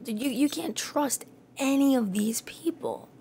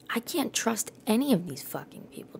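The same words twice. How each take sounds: First: Whisper. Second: Said in the usual way. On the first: Real, not acted. Repeats the line as whisper.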